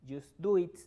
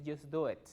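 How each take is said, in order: First: "it" said as "eet", punched louder; wrong pronunciation. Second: "it" opened to "et"; "it" with an open e vowel; corrected pronunciation. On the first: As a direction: hit "just do it" with a tight ee in "it". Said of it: "Yo no digo". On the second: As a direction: say "just do it" with "it" as "et". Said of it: "la pronunciación más similar es et". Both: Shown as a demonstration.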